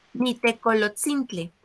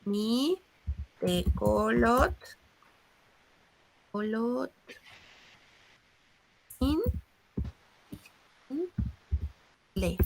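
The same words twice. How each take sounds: First: Said in the usual way. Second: "Nitecolot-, colot-, in-, le" with long pauses between the pieces; teacher stretching out each piece of "Nitecolot-, colot-, in-, le"; divided into parts. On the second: Shown as a demonstration. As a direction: break "Nitecolot-, colot-, in-, le" apart, very slowly. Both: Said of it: "se va a dividir la palabra".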